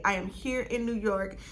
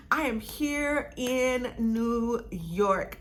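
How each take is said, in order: First: Said in the usual way. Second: IN NEW YORK stretched out slowly, word by word; drawn-out emphasis. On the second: Real, not acted. States it grandly, then repeats it.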